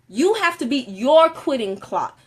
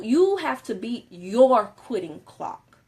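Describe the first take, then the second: First: A coach driving the point home; emphatic repeat, louder. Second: Slow deliberate. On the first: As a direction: push each word of "You have to beat your quitting clock". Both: Shown as a demonstration.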